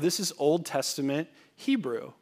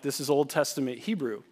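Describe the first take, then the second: First: It is said in a friendly, relaxed way. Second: It is said in a curt, impatient way. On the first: The speaker is happy to chat. "I didn't really say it like that" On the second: The speaker wants to be left alone. "because I wanted to get back to"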